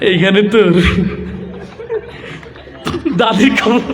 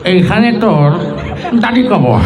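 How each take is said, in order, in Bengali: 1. এটা নরম ও দ্বিধাগ্রস্তভাবে বলা হচ্ছে। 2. এটা একজন বুড়ো মানুষের গলায় বলা হচ্ছে। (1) "লাজুক একটা যুবক আসছে, তার আবৃত্তির ঢং ছিল এরকম" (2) "মুরব্বী পান খেতে খেতে আসছে তার মতো"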